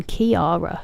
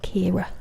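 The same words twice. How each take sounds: First: "Kiara" said with three syllables, kee-AR-a; "Kiara" as the wrong three-syllable name; wrong pronunciation. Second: "Kira" said in two syllables, KEER-a; "Kira" as the correct Irish name; right pronunciation. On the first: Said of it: "It's not even Kiara". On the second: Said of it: "It's just two syllables". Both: Shown as a demonstration.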